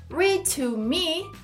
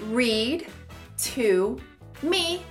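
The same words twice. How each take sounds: First: The D of 'read' is dropped before 'to'. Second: The D of 'read' is clearly pronounced. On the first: "esse D que a gente fala no read, ele começa a ser ignorado" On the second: "Treinamos todas as palavras separadamente"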